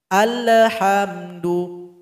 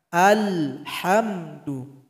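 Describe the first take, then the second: First: An extra e sound follows the l. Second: No extra vowel sound follows the l. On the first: The speaker calls it wrong. "ada bunyi e di situ" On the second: The speaker calls it right. "Tidak ada di situ tawalud. Itu bacanya sudah betul"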